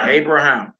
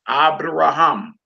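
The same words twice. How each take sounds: First: Said in the usual way. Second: "Abraham" slowly as ah-bra-HAM; Hebrew pronunciation. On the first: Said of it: "Who name is that". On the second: Shown as a demonstration. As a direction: open "ah" start to "Abraham", long stressed final "ham". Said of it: "accent on last syllable".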